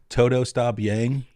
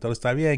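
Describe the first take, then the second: First: It is said with an American accent. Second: It is said with a Latino Spanish accent.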